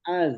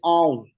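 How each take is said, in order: First: The final consonant is a plain, light z sound. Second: The final consonant is a heavy, emphatic z sound. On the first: The speaker calls it wrong. "bukan az" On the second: The speaker calls it right. "tapi au"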